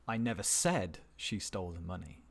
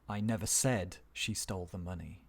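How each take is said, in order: The two takes are said the same way.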